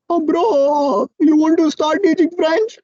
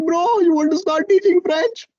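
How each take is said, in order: First: Drowsy, high, dragged out; lazy half-asleep mumble; sleepy voice. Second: High, drowsy imitation of a friend; sleepy voice. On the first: Retold or imitated. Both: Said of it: "he was in a very sleepy voice".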